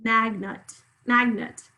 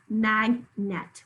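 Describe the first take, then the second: First: Magnet said "MAG-nut"; usual schwa. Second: Magnet said slowly "mag-NET"; wrong full E. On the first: Teacher gives the natural word, usual schwa. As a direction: reduce the end of Magnet to nut. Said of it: "I can't even say magnet". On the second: Teacher shows what we don't say, wrong full E. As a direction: sound magnet's second syllable as a full net. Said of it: "We don't say magnet". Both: Shown as a demonstration.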